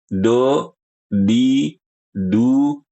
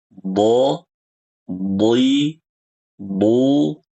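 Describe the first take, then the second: First: The consonant is a light plain d sound. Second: The consonant is heavy, with the tongue side pressing. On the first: The speaker calls it wrong. "Bukan do, di, du" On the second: The speaker calls it right. "contoh saya ulangi"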